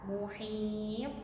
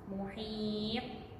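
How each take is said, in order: Both takes have the same delivery.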